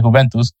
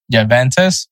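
First: "Juventus" with an H-like opening, "hoo-VEN-toos"; "Juventus" said Italian style, ending in "-toos"; Italian pronunciation. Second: "Juventus" said the English way, with a J sound and an "-təs" ending; "Juventus" as Americans say it, starting with J; anglicized name. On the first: Podcast host correcting himself to the Italian way. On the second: Podcast host reading the Serie A team list, English style. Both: Shown as a demonstration. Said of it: "or as everyone says it".

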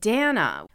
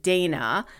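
First: "Dana" said DAH-na; Hebrew pronunciation. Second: "Dana" said DAY-na; long AY in the first syllable of "Dana"; common English pronunciation. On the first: Host recalling a dorm mate's own name, Hebrew DAH-na. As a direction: open AH in the first syllable of "Dana". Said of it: "is the Hebrew pronunciation". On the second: Host recalling how everybody misread the name, DAY-na. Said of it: "everybody said Dana". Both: Shown as a demonstration.

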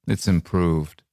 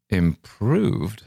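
First: Understated, matter-of-fact reply; laconic. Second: Higher-pitched, mildly incredulous query; surprised echo. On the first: Corporal answers about London, laconic. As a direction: drop it as a laconic verdict, falling at the end. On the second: Correspondent questions the corporal's verdict, surprised. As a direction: echo the word higher, taken aback. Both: Acted.

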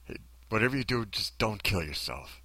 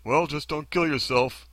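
First: Quietly earnest plea, easing off at the end; sincere version. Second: Higher, drawn-out mock advice; mocking, pitched-up brush-off; glib version. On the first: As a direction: say it gently, as if it were caring advice. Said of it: "I said it like this". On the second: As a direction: parody how hollow the advice sounds. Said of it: "how that sounds to us". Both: Shown as a demonstration.

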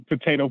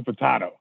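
First: "potato" with a long "ay" in the middle, po-TAY-to; long-A pronunciation. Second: "potato" with an open "ah" in the middle, po-TAH-to; broad-A pronunciation. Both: Shown as a demonstration. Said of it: "I guess it's like potato, potato".

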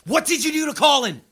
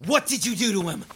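First: Furious demand; angry shout. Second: Angry demand. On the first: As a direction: shout it, high and loud. Confronting captors, escalating. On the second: Confronting captors about Colin. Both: Acted.

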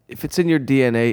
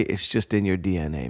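First: Said in the usual way. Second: "just in your D N A" said lower and softer, settling on "in"; lower, softer knowing repeat. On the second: Shown as a demonstration. Repeating the DNA point to the audience, lower and softer. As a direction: drop it low and soft, like a truth everyone knows. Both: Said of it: "repeats the line for weight".

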